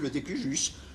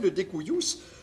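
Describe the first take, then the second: First: It is pronounced the usual French way. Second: It is pronounced in a non-French, Latin-style way.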